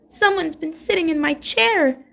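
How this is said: It is said in a wee little voice.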